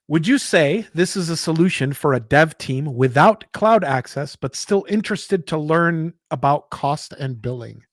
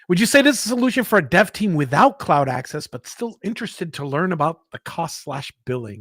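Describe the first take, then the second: First: It is read slowly. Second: It is read at a normal pace.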